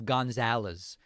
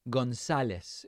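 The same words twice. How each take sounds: First: The name is said with an English pronunciation. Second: The name is said with a Spanish pronunciation. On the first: "instead of González" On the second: "very jarringly interrupt what they're saying to say González"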